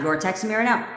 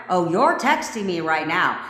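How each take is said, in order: First: Said in the usual way. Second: Firm, commanding affirmation; with authority. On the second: Shown as a demonstration. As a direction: state it as an order, with authority. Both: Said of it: "Say it with a little goddamn authority".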